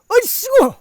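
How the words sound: It is said in a bold, hearty way.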